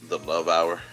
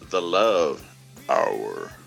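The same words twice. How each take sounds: First: It is said in his normal speaking voice. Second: It is said in a put-on, creepy radio voice.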